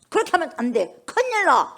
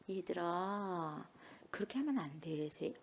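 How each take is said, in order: First: It is said in a sharp, stern tone. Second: It is said in a soft, gentle tone.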